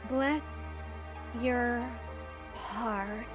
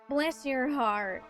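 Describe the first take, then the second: First: It is said more slowly. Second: It is said at a normal pace.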